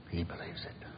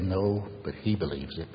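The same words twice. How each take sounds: First: Soft whispered echo; hushed repeat for emphasis. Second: Said in the usual way. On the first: Real, not acted. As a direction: let it sink in with a whisper. Echoing the quote, hushed.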